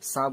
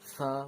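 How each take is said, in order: First: The consonant is a plain hissing s sound. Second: The consonant is made with the tongue between teeth. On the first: The speaker calls it wrong. "সা বলবেন না" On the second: The speaker calls it right. "জিভ বার করে সা সা বলবেন"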